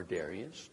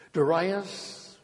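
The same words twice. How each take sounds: First: Darius said DARE-ee-us, softer; alternative pronunciation. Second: Darius said duh-RYE-us, loud and high; stressed second syllable. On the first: Preacher offers the other pronunciation aside, Darius as DARE-ee-us. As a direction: say Darius with stress on the first syllable, DARE. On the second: Preacher reads the Mede's name aloud, Darius as duh-RYE-us. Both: Shown as a demonstration. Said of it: "or Darius".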